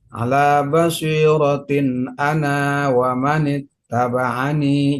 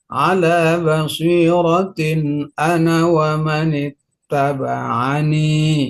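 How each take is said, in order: First: The final vowel of ana is held long. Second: The final vowel of ana is kept short. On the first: The speaker calls it wrong. "jangan ya" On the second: The speaker calls it right. "Harus dibuang matnya ya"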